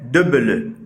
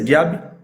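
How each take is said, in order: First: It is pronounced with Fang sounds. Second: It is pronounced with French sounds. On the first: "mais dans ma langue, c'est debele" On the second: "En français, c'est diable"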